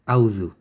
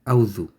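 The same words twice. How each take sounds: No difference in how they are said.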